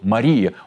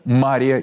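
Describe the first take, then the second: First: The stress is on the second syllable. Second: The stress is on the first syllable. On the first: It is used only for the Virgin Mary. "так как на второй – Мария" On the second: It names Mary of Egypt. "Ударение на первый слог"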